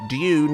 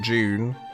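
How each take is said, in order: First: The word starts with a clear D sound. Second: The word starts with a J sound. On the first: The speaker calls it right. "I'm going to say it right" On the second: The speaker calls it wrong. "not June. I always say June"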